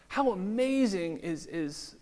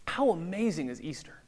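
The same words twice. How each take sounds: First: Slowed right down, lifted in awe; slow marvelling. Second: Said in the usual way. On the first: Real, not acted. Pastor marvels at Good Friday before church, slow and awed. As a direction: draw out How amazing is in wonder. Rhetorical wonder, said twice.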